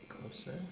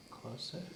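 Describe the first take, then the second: No difference in how they are said.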